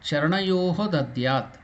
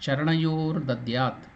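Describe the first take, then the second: First: The first word ends in a breathy 'ho' sound. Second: The first word ends in an 'r' sound. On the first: The words are said separately. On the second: The words are joined together.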